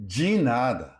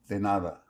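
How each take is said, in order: First: De nada with de said as ji; Brazilian de as ji. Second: De nada with a clean d and open e; plain de. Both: Shown as a demonstration. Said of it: "D E in Brazil is often pronounced like G".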